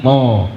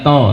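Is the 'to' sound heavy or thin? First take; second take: heavy; thin. First: The to sound is thick and heavy. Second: The to sound is thin and light. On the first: The speaker calls it right. "tapi to tebalkan" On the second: The speaker calls it wrong. "bukan to"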